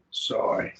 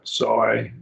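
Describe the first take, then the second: First: Said in the usual way. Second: SOY drawn out with emphasis; emphatic form. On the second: Shown as a demonstration. Teacher trying the distinction, soy stressed and lengthened. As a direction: lean slowly on soy. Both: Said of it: "I try to make a distinction".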